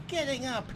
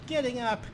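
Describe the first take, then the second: No difference in how they are said.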